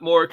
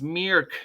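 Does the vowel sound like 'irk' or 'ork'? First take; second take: ork; irk. First: The vowel sounds like the one in 'ork'. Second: The vowel sounds like the one in 'irk'. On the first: The speaker calls it wrong. "we've been pronouncing it wrong" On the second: The speaker calls it right. "It's Mirk"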